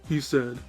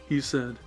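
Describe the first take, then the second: Both takes have the same delivery.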